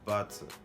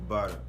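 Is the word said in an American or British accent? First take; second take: British; American. First: It is said with a British accent. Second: It is said with an American accent. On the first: "c'est en British, c'est butter" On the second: "les Américains diront butter"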